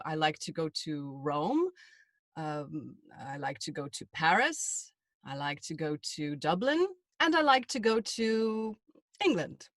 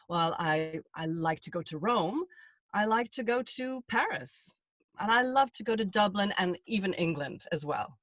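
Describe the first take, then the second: First: Every item rising, last one falling; sing-song list, each place rising till England drops; list intonation. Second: Each place said with its own feeling; vary the tune, Paris falling, no questioning rise; varied list. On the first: Demoing a list with upward inflection on each item. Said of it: "you ended that on sort of a downward inflection". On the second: Demonstrating a natural list to a British listener. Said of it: "So you say". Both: Shown as a demonstration.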